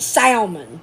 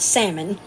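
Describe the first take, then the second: First: The L sound in the word is pronounced. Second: The L sound in the word is silent. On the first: This is how it is said in the South. "the L is not silent in the South. We eat salmon down here" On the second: This is how it is said outside the South. "not salmon"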